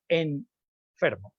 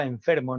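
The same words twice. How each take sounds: First: Enfermo stretched very slowly, the n held apart from the f; wrong separated n. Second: Said in the usual way. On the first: Shown as a demonstration. Lecturer shows the wrong, over-careful enfermo. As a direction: drag out enfermo with a stopped n. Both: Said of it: "no enfermo".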